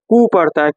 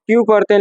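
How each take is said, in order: First: "कू" as koo, no y glide; German letter Q. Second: "क्यू" as kyoo, with a y glide; English letter Q. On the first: Teacher shows how Germans read it, koo. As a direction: drop the y for "कू". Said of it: "लेकिन वो लोग". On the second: Teacher cites how we read Q, English kyoo. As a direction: keep the y in "क्यू". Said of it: "क्यू को हम लोग". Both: Shown as a demonstration.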